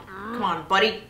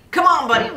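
First: Said in the usual way. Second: Loud, high urging shout; urgent pleading. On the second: Real, not acted. Player urging the buddy up, high urgent shout. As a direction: push the climber on louder. Player urges climber, louder.

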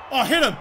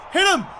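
First: Said in the usual way. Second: Higher, sharp call to a teammate; urgent shout. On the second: Real, not acted.

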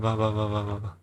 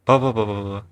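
First: Hushed mumble while hiding; whispering while hiding. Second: Said in the usual way. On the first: Real, not acted.

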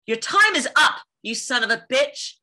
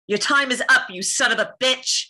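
First: High, loud punch on the first half; heated heroine's showdown curse; fierce threat. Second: Raised, forceful character curse; loud, high defiance; defiant threat. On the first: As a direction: hit TIME IS UP high and hard. Second, stronger take of curse line. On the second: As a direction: deliver a heroine's showdown threat. Performs requested curse line. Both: Acted.

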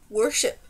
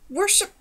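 First: Firm, even one-word confirmation. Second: High, incredulous one-word question; startled, much higher, rising; sputtered. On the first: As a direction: state it with calm certainty. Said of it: "he said firmly". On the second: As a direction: blurt it in disbelief, pitch jumping up. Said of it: "sputtered the prince". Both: A narrator's reading.

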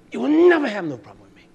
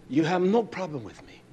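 First: Raised voice. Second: Said in the usual way. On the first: Acted. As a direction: pitch jumps up on "never", then falls. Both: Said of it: "You hear my voice raise?".

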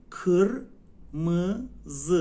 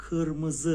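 First: کرمز very slow and loud: KIR, MI, ZI; syllable by syllable. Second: کرمز joined up as one word, kırmızı; whole word. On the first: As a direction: break kırmızı into three long dull-ı syllables with pauses. («کرمز» خیلی کشیده و هجا به هجا) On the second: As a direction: say kırmızı in one go with dull ı vowels, firm. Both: Shown as a demonstration.

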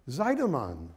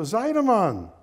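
First: Said in the usual way. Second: Loud, high call with a falling end. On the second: Acted. Man calling his old friend from a train window, calling out. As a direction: shout the name out to a friend. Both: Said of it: "Yuska called out the window".

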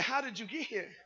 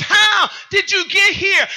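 First: Very soft quoted question; hushed quote. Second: High, slow preacher's cry; shouted preaching question. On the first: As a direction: drop right down to deliver the quote. Quotes the song's words quietly. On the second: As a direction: cry it out to the congregation, slowly. Turns the quote into preaching. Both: Acted.

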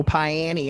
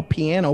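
First: "Piani" said as "pie-annie"; Eastern Kentucky pronunciation. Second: Said in the usual way. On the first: Retold or imitated. Quoting friend's mom, "Piani" said "pie-annie". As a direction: turn the ending of "Piani" into "ee", opening with "pie". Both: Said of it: "she'll call piano Piani".

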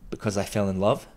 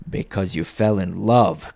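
First: Said in the usual way. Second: Slow, growled echo, falling on love; scornful growl. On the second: A narrator's reading. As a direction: drag it out with contempt. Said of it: "growled Scrooge".

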